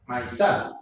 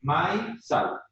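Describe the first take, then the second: First: "maizal" stressed on the last syllable, "sal"; stress on final syllable. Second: "maizal" as two beats, "mai" then "sal"; split into syllables. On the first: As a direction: land the accent on "sal" in "maizal". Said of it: "el acento recae en esta". ("maizal" con el acento en "sal") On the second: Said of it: "va en una misma sílaba". ("maizal" separado en dos sílabas: "mai", "sal") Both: Shown as a demonstration.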